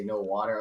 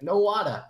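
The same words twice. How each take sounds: First: Said in the usual way. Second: High, loud imitated Asian accent; mock Asian accent. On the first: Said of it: "Like, I didn't say". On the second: Firefighter answering the Asian lady, mock accent. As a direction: echo it back loudly in a put-on Asian accent. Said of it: "You gotta say it in the accent".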